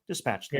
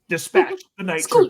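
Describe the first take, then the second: First: It is said flatly, without emotion. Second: It is said with emotion in the voice.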